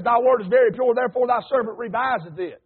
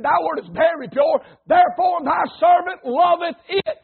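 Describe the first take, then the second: First: Said in the usual way. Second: Quoting scripture with rising fervour, ending in a shout; fervent quote. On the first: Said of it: "there's a lot of people says". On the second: Shown as a demonstration. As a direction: build it up, then cry out servant. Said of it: "No, he said, "Therefore thy servant loveth it".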